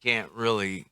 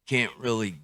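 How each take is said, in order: Both takes have the same delivery.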